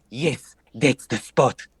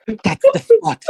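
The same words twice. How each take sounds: First: Natalaya. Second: Squealing high, loud ecstatic cry; hammed-up moan of pleasure, high and loud; Natalaya. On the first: Acted. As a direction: drag it out slowly and seductively. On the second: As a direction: bard moaning to Cedric, high squealing cry. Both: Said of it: "As Natalaya".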